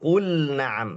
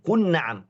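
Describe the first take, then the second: First: The l sound is kept before the n. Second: The l sound is merged into the n. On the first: The speaker calls it right. "yang benar itu kul na'am" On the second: The speaker calls it wrong. "mungkin ada yang baca kun na'am wa antum"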